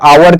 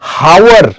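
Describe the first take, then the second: First: The word begins with a vowel, no h. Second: The word begins with an audible h sound. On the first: The speaker calls it right. "आवर करते हैं" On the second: The speaker calls it wrong. "हावर pronounce नहीं करते हैं हम लोग"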